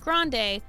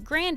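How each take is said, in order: First: The name ends with an 'ay' sound. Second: The name ends with an 'ee' sound. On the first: It is the version chosen because it sounded cooler. "the same as the Starbucks drink size" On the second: It is the grandfather's original pronunciation. "My grandpa said Grandy"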